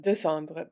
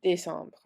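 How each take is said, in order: First: Décembre with a neutral "duh" first syllable instead of "day"; missing accent. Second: Décembre with a clear "day" first syllable; accented é. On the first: French teacher showing the mistake in décembre, missing accent. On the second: French teacher correcting the accent in décembre, clear accented é. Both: Shown as a demonstration. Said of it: "Same thing with décembre".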